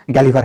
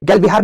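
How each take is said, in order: First: गैलिवर said as one word, gaa-li-var; teacher gives the right गैलिवर clearly; correct pronunciation. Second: गैल बिहार said as two words, gail-bihaar, the way students mispronounce it; wrong pronunciation. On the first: Teacher correcting a student named Ritu, clear gaa-li-var. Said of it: "इसका pronunciation Ritu". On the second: Teacher showing students the wrong way to say it, split gail-bihaar. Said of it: "नहीं बोलते इसका pronunciation". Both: Shown as a demonstration.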